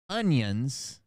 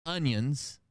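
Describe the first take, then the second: First: Onions said as ungyunz with a g sound; his usual onions. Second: Onions said plainly as unyunz, no g; corrected onions. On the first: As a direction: say onions with a hard g like youngins. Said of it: "with a G in it". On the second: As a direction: say onions without any g sound. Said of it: "It's O N I O N S". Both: Shown as a demonstration.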